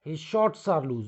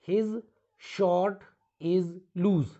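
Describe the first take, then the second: First: Said in the usual way. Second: "his short is loose" said slowly, word by word; slow "his short is loose", pausing after "his"; wrong example. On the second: Shown as a demonstration. ("his short is loose" धीरे-धीरे, रुक-रुककर) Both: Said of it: "no, this is wrong".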